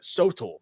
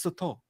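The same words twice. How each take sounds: First: "Sotol" with a full first vowel, SOH-tole; mistaken pronunciation. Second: "Sotol" softly, as suh-TOLE; corrected pronunciation. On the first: Co-host asks his friend, mispronouncing "Sotol" as SOH-tole. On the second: Mexican friend corrects him, saying "Sotol" as suh-TOLE. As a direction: give "Sotol" a reduced first vowel, suh-TOLE. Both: Retold or imitated. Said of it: "I was saying it wrong".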